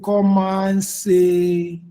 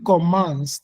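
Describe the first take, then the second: First: The final e is sounded, giving three syllables. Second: The final e is silent, giving two syllables. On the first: "si je veux que le C soit prononcé" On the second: "le E est devenu muet"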